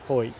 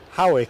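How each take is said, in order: First: It is said as one syllable, hoyt. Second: It is said as two syllables, how-ick. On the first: It is the local way of saying it. The speaker calls it right. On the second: It is read straight off the spelling. The speaker calls it wrong.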